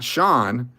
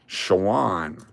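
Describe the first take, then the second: First: The name is said like Sean. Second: The name is said like Shawan. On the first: The speaker calls it wrong. "Not Sean" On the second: The speaker calls it right.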